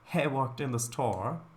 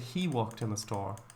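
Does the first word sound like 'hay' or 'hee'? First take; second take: hay; hee. First: The first word is said like 'hay'. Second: The first word is said like 'hee'. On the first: The speaker calls it wrong. "You wouldn't say" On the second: The speaker calls it right. "You'd say"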